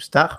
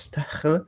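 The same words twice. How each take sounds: First: The name is said without an H sound. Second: The name is said with an H sound.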